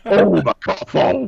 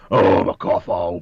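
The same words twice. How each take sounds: First: Giggling through the words; laughing. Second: Rough gravelly smoker voice. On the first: Real, not acted. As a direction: laugh as you say it. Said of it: "You gotta say it with". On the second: Shown as a demonstration. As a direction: rasp it like a heavy smoker. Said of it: "a real gravelly voice as well".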